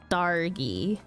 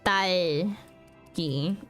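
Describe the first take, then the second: First: The middle consonant is an R sound. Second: The middle consonant is an L sound. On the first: The speaker calls it wrong. "if I were to pronounce her name with an R" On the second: The speaker calls it right. "But it's"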